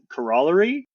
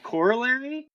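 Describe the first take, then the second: First: It uses a western Canadian regional pronunciation. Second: It uses the speaker's usual pronunciation. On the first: "he always pronounced it" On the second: "there's this word"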